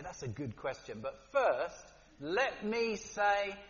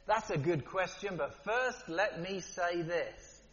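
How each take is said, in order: First: Evasive politician. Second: Jesus's calm reply. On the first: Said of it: "they look you in the eye and they say". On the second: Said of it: "it's different when Jesus does it". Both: Retold or imitated.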